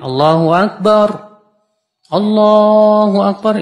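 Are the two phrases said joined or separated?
separated. The two phrases are split apart by a break. The speaker calls it wrong. "Kalau ada orang bertakbir begini"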